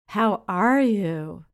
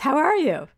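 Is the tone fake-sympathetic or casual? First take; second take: fake-sympathetic; casual. First: It sounds fake-sympathetic and superior. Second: It sounds casual and normal.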